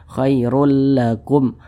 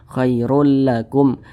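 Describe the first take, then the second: No difference in how they are said.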